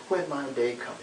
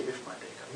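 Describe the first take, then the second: First: "When" said firmly and clearly; stress on WHEN. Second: Said in the usual way. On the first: Shown as a demonstration. Preacher correcting how Martin put it, stress on "When". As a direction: lean on "When" as a certainty. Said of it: "he didn't say, "If my day comes". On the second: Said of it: "he didn't say".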